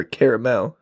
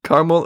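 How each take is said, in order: First: Caramel said as CARE-uh-mel; three-syllable caramel. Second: Caramel said as CAR-mul; two-syllable caramel. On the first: Host offers other option, caramel as CARE-uh-mel. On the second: Host offers first option, Caramel as CAR-mul. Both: Shown as a demonstration. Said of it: "Caramel or caramel, whatever you prefer".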